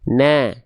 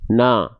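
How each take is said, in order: First: The vowel is thin and sounds like 'a'. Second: The vowel is thick and sounds like 'o'. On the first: The speaker calls it right. "Sedangkan ini kurang tipis, harusnya" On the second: The speaker calls it wrong. "Kalau nggak ada senyum, khawatirnya pelafalan yang kita hasilkan adalah seperti ini"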